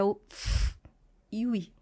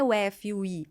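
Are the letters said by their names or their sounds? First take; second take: sounds; names. First: The letters are spoken as their bare sounds. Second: The letters are spoken by their full names. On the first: The speaker calls it right. "é o F e o I" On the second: The speaker calls it wrong. "não é o F e o I"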